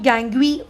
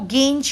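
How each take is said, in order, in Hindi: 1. यह शब्द 'gvee' की आवाज़ से खत्म होता है। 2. यह शब्द 'j' की आवाज़ से खत्म होता है। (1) "कई लोग इसको गैंग्वी बोलते हैं" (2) "कई लोग इसको गेंज भी बोलते हैं"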